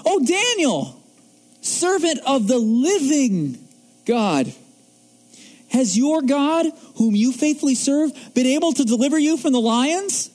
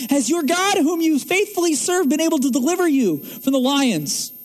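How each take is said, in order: First: King calling out anxiously, a touch higher; quoted king's anxious cry. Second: King calling with hopeful faith, a touch higher; quoted with faith. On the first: Preacher voicing the king calling to Daniel, mildly anxious. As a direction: plead lightly as the worried king. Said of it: "He cries out anxiously to God". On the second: Preacher retelling the king's faithful call to Daniel, mild. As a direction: voice it as a hopeful call, not a doubt. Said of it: "But he says it with faith". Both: Retold or imitated.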